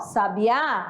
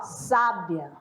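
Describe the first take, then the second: First: The stress is on the last syllable. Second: The stress is on the first syllable. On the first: "a sílaba mais forte está na última" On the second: "A sílaba mais forte está na primeira"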